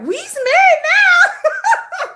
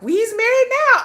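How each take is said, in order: First: Very high, slow, laughing sing-song; Color Purple quote. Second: High, loud, drawn-out movie-quote voice; hammed-up Celie line from The Color Purple. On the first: Retold or imitated. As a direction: stretch it out, cracking up as you quote the movie. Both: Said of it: "'Cause we like The Color Purple".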